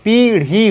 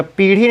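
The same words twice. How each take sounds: First: पीढ़ी with a stretched "pee"; long ī. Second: पीढ़ी with quick, short i vowels. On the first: Teacher correcting it for students, long-ī पीढ़ी. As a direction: take more time on the पी of पीढ़ी. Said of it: "ज़्यादा समय लेगा". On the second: Teacher showing students the misspelling, short-i पीढ़ी. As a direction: keep पीढ़ी brief, as "pirhi". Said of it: "पीढ़ी नहीं होता". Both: Shown as a demonstration.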